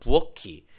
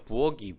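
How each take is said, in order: First: The middle consonant is an aspirated k. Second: The middle consonant is a plain unaspirated k. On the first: The speaker calls it right. "이 키읔이 그대로 넘어가야 되겠죠. 그래서 부어키, 부어큰 이렇게 발음해야 돼요" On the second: The speaker calls it wrong. "실생활에서 부억이 부억은 이렇게 발음하거든요. 저도 잘못 발음하는 거겠죠"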